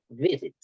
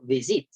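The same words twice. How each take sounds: First: The stress is on the first syllable. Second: The stress is on the second syllable. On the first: The speaker calls it right. "yo digo visit, ¿sí o no? Ahí el énfasis en la, es en la primera sílaba" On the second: The speaker calls it wrong. "yo no digo visit"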